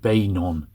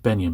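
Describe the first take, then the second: First: The first syllable sounds like 'bane'. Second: The first syllable sounds like 'ben'. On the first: The speaker calls it right. "but it's Bay, Bainon" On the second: The speaker calls it wrong. "I often pronounce it Benyon"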